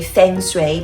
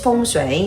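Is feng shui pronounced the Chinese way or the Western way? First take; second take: Western; Chinese. First: It is pronounced the Western, English-speaker way. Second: It is pronounced the original Chinese way. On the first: "as we like pronounce this in Western way" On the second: "but actually it's"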